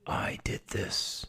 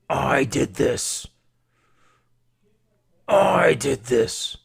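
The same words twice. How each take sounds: First: Slow, drawn-out whisper; hushed and deliberate, each word stretched; whispered villain confession. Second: Slow, booming, distorted-sounding roar; loud, deliberate villainous gloating; roared villain confession. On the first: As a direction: confess it in a sinister hush. Villain's confession, first quiet take. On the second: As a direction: bellow each word, drawn out and building. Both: Acted.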